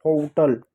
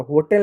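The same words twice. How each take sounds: First: होटल as "hoh-tuhl"; long o, then weak uh in होटल; correct pronunciation. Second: होटल as "ho-tel"; an e vowel before the l in होटल; wrong pronunciation. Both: Shown as a demonstration. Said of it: "होटल नहीं".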